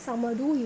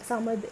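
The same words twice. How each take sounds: First: The word ends with a final vowel sound. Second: The word ends cut off on a consonant. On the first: The speaker calls it wrong. "இல்ல" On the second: The speaker calls it right. "ஏன்னா ஸ்டாப் ஆகுது"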